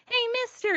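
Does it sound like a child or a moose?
child. It is said in a child's voice.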